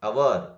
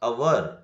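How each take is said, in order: First: The word begins with a vowel sound. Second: The same.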